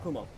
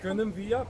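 First: Swabian dialect form merged into one short word. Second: Full standard German form with two separate words.

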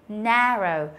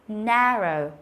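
Both takes have the same delivery.

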